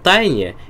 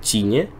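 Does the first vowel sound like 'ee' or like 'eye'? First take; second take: eye; ee. First: The first vowel sounds like 'eye'. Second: The first vowel sounds like 'ee'. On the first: The speaker calls it wrong. "это созвучно со словом тайна" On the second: The speaker calls it right. "звучит достаточно хорошо"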